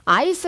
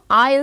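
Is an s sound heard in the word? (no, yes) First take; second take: yes; no. First: An s sound is pronounced in the word. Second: No s sound is pronounced in the word. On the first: The speaker calls it wrong. "I's 아니에요" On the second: The speaker calls it right. "S 발음 탈락"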